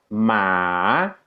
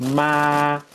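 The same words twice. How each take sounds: First: It is said with the tone meaning horse. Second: It is said with the tone meaning mother. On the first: It means horse. "esto quiere decir caballo" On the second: It means mother. "que quiere decir mamá"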